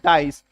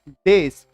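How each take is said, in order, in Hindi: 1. स्वर 'eye' जैसा है, 'dice' की तरह। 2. स्वर 'eh' जैसा है, 'dess' की तरह। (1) "कुछ लोग ना गलत उच्चारण करते हैं, वो बोलते हैं डाइस" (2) "but this is डेस"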